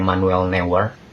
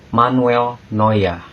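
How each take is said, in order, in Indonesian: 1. Vokalnya dibaca sesuai tulisannya, bukan 'oy'. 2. Vokalnya terdengar seperti 'oy', diakhiri seperti 'a'. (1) "Banyak yang salah kaprah dalam pelafalan uh, jadi kayak" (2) "Padahal kalau di Jerman"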